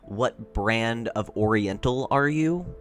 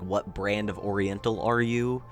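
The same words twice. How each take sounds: First: It is said with lively, expressive tone. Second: It is said in a flat, toneless voice. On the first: The teller finds the story interesting. The speaker calls it right. "a lot more interesting" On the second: The teller seems uninterested in the story. The speaker calls it wrong. "you don't have any tone in your voice"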